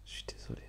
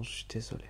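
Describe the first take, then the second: First: Breathy whisper, barely audible; whispered apology. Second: Said in the usual way. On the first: Real, not acted. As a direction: whisper the sorry like a secret. Répète l'excuse en chuchotant. (excuse chuchotée tout bas)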